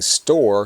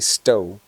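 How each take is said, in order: First: The word ends with a clear 'r' sound. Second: The word ends without any 'r' sound. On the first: "Instead of saying store" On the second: "sometimes people say stow"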